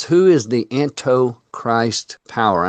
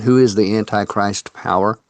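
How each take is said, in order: First: "Antichrist" said slowly as "anto-Christ"; misspelling read out. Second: Said in the usual way. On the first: Real, not acted. Host reads a viewer's misspelt question, saying "Antichrist" as "anto-Christ". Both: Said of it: "I believe that means anti".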